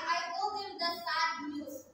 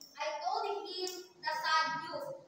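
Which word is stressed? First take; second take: I; him. First: The stress is on "I". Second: The stress is on "him".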